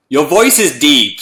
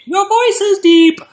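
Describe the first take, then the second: First: Said in the usual way. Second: Exaggerated put-on deep voice, slow; mock deep voice. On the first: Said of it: "said Cherokee". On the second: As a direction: drag it out, playfully hamming up the deepness.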